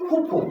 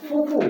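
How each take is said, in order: First: "ফুফু" as phuphu, closed lips then a puff; soft, higher "ফুফু" with aspirated p, no f. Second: "ফুফু" with English f sounds; both "ফ" as f, not aspirated p; mispronounced ph. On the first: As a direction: pop both "ফ" as breathy p-h. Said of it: "এটা হবে". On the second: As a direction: say "ফুফু" as fufu, lip on teeth. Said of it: "আমরা অনেকে বলি". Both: Shown as a demonstration.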